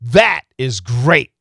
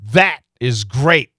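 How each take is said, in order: First: The final T is cut off with a stop. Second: The same.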